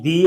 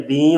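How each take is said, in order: First: Said in the usual way. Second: دی with the ee through the nose; nasalized vowel. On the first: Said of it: "غنے کی آواز کا ہونا اور نہ ہونا". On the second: Shown as a demonstration. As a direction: contrast take of دی, vowel nasal. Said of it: "غنے کی آواز کا ہونا".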